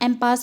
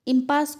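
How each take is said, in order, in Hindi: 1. पहला स्वर 'em' जैसा बोला जाता है। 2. पहला स्वर 'im' जैसा बोला जाता है। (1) "हम एम्पास भी प्रोनाउंस प्रोनाउंस करते हैं" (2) "इम्पास को"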